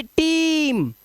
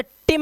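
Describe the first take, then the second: First: "टीम" with a long drawn-out ee; long vowel. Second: "टिम" with a short, quick i; wrong reading "टिम", brief i instead of ee; short-vowel mistake. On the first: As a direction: stretch the ee in "टीम", pitched up. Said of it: "long vowel sound देता है". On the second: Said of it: "टिम नहीं पढ़ना है". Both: Shown as a demonstration.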